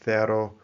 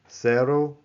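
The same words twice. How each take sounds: First: The first sound is a th sound. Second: The first sound is an s sound. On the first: This is the pronunciation used in Spain. "in Spain, you would say" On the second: This is the Central and South American pronunciation. "pronouncing these the way that you would in most Central and South American countries"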